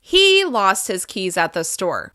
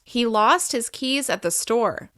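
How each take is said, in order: First: The word he gets extra pitch emphasis. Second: No single word gets extra emphasis. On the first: "I might stress he more than the rest of the sentence" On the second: "In a normal neutral sentence"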